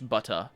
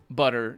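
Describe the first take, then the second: First: The T is crisp and clearly released. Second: The T is flapped, sounding like a quick D. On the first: The speaker calls it right. "if you go for the British butter" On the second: The speaker calls it wrong. "if you pronounce it with the American way, which is uh, the way I'm doing it"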